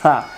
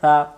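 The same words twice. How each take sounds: First: The consonant is a plain hissing s sound. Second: The consonant is soft, made with the tongue tip. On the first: The speaker calls it wrong. "তাহলে সিন অক্ষর উচ্চারণ এটা সা" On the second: The speaker calls it right. "সা অক্ষরে জিহ্বার আগা থেকে নরম করে পড়তে হয়"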